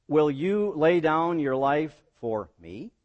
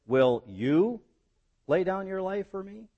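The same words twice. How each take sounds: First: Slow build, "for me" set apart and rising at the end; stress on FOR ME. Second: "you" rising high and held, pause, then "lay down your life for me"; stress on YOU. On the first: Preacher tries the third reading as Jesus, stress on "me". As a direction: linger before "me" and lift it into a question. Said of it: "Or was the emphasis". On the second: Preacher asks as Jesus challenging Peter's importance, stress on "you". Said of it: "Or was it the emphasis". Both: Shown as a demonstration.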